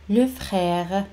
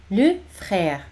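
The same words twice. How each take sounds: The two takes are said the same way.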